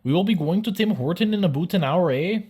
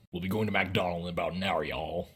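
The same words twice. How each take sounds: First: High, loud mock-Canadian question; singsong caricature Canadian, pitched way up. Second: Quick, low mock-American statement; fast, flattened mock-American, sinking on "y'all"; American declaration. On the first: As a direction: ask it as an exaggerated Canadian. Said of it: "all Canadian sentences being phrased as questions". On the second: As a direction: rattle it off softly as a caricature American. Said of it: "Americans declare that you will be going". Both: Shown as a demonstration.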